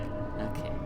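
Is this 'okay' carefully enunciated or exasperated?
exasperated. It is said with a weary, frustrated sigh. The speaker calls it right. "It's supposed to be like"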